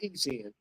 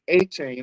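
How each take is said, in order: First: The name starts with an 'ee' sound. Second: The name starts with an 'ay' sound. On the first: The speaker calls it wrong. "not E Chain" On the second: The speaker calls it right. "it's A Chain"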